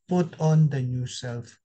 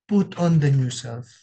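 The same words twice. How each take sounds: First: "Put on the new self" read slowly and evenly, each word spaced; slow scripture reading. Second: "Put on the new self" repeated louder, leaning hard on "Put"; emphatic repeat. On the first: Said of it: "Sabi ni Paul". (mabagal na pagbasa ng talata) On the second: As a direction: drive the command home to the congregation. (mariing pag-ulit ng utos) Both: Shown as a demonstration.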